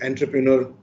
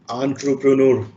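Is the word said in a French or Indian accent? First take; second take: Indian; French. First: The word is said in an Indian accent. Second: The word is said in a French accent. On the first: "or in Indian accent" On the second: "the proper pronunciation is entrepreneur. You know, when you the French people speak"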